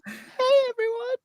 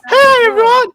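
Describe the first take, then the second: First: It is said quietly. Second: It is said loudly.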